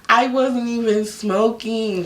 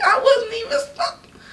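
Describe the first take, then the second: First: Said in the usual way. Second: High crying whine on wasn't; mock sobbing. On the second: Protesting the smoking fee to viewers, mock sobbing. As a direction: wail it as a fake sob, much higher.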